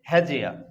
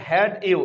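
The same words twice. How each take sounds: First: "হ্যাজিয়া" with d and y fused into j; linked pronunciation. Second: Said in the usual way. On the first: Shown as a demonstration. Teacher shows what it becomes, "হ্যাজিয়া" with a j link. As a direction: run it together as he-jia, "হ্যাজিয়া". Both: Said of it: "এটাকে আমরা উচ্চারণ করব কি".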